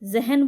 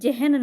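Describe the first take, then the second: First: The word begins with a buzzing 'z' sound. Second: The word begins with an English-like 'j' sound. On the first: The speaker calls it right. "जहन बोलते हैं" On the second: The speaker calls it wrong. "जहन नहीं बोलते हैं"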